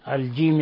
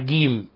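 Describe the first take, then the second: First: It begins with a soft j sound. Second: It begins with a hard g sound. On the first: The speaker calls it right. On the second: The speaker calls it wrong.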